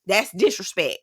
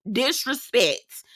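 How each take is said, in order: First: Said in the usual way. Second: "Disrespect" said very slowly, syllable by syllable; drawn-out emphasis. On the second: Real, not acted. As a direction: stretch out "Disrespect" to drive it home. Repeats the word, stretched out.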